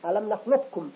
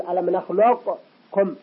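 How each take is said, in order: First: "نخلقكم" as one smooth nakhlukkum; assimilated qaf. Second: "نخلقكم" slowly, q released, break, then kum; wrong separated qaf. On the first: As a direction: fold q into a doubled k in "نخلقكم". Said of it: "ندمج القاف في الكاف". (إدغام قاف "نخلقكم" في الكاف) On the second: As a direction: bounce the q apart from kum in "نخلقكم". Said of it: "ولا نقول". (إظهار قاف "نخلقكم" مع الوقف قبل الكاف) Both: Shown as a demonstration.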